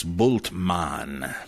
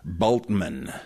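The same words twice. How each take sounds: First: "Bultmann" as BOOLT-mahn, slowly; German pronunciation. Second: "Bultmann" as BOLT-mun; wrong pronunciation. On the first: Giving the correct name, "Bultmann" as BOOLT-mahn. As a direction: give "Bultmann" a long u and full mahn. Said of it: "It's Bultmann". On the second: Showing what to avoid, "Bultmann" as BOLT-mun. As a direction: reduce the end of "Bultmann" to mun, start BOLT. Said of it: "it's not Bultmann". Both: Shown as a demonstration.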